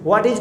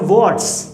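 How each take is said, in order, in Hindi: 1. दोनों शब्द पूरे और अलग-अलग बोले जाते हैं। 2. दोनों शब्द मिलकर एक ही शब्दांश में बोले जाते हैं। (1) "व्हाट इज को हम लोग शॉर्ट में क्या बोलते हैं" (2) "शॉर्ट में"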